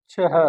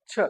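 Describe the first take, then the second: First: छह said "chhah" with an aspirated ch and a breathy h at the end; छह with the final h clearly breathed out; correct छह. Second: छ said short as "chha", no final h; छ clipped the everyday way, no breathy ending; casual wrong छ. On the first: Teacher shows students the correct word, छह with final breathy h. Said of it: "शब्द होता है". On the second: Teacher shows students the common mispronunciation, छ clipped short. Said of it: "हमारी भाषा में बोलते हैं छ". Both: Shown as a demonstration.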